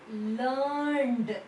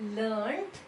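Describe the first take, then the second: First: The word ends in a d sound. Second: The word ends in a t sound. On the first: "Both are right" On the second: "it takes the pronunciation of t"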